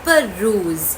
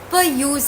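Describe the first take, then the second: First: It is said as one word, pe-rooz. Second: It is said like two words, per and use. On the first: The speaker calls it right. "The right pronunciation is పర్రూజ్" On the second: The speaker calls it wrong. "First time చూసినప్పుడు పర్ యూజ్ అని చదివాను"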